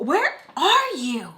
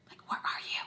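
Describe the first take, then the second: First: High, loud, drawn-out mock yell; exasperated inner shout. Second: Urgent whisper, no voice at all. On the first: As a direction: stretch it out as a frustrated cry in your head. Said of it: "And in my head". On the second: Retold or imitated. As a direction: whisper it so nobody nearby hears. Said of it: "trying to whisper".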